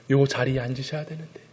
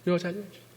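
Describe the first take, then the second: First: Said in the usual way. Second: Higher, much softer, rising; soft ache for the elder's return; tender longing. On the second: Real, not acted. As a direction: say it again as a tender wish.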